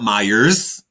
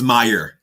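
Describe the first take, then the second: First: The name ends with an s sound. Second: The name ends without an s sound. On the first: The speaker calls it wrong. "it's not Myers" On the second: The speaker calls it right. "It's Meyer"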